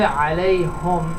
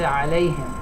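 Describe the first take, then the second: First: The vowel after the h is u. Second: The vowel after the h is i. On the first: The speaker calls it wrong. "If you say alayhum" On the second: The speaker calls it right. "alayhim is just easier, it just rolls off the tongue better"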